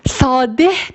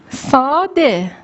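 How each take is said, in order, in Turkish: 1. Kelime duyulabilir bir h sesiyle bitiyor. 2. Kelime sesli harfle bitiyor, h sesi yok. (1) "Sadeh demiyoruz" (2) "Ama okumuyoruz"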